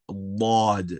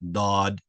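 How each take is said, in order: First: A heavy, deep consonant from the tongue's side. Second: A plain d from the tongue tip, rounded lips. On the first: The speaker calls it right. "not from the tip of our tongue, but from the side of our tongue" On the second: The speaker calls it wrong. "The first one that I made that I pronounced wrong is us taking a dal, which comes from the tip of our tongue, and all we do is make it rounded"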